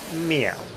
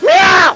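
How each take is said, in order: First: It is said quietly and flatly. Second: It is yelled loudly.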